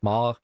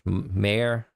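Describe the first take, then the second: First: The word is said with a French accent. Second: The word is said with an English accent. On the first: "Am I supposed to pronounce it like a French?" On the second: "Am I supposed to pronounce it like in English?"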